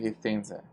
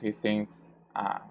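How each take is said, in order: First: The last vowel is reduced to a schwa. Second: The last vowel is full and unreduced. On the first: The speaker calls it right. "Remember that we reduce this vowel here. We say" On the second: The speaker calls it wrong. "We don't pronounce he thinks ah"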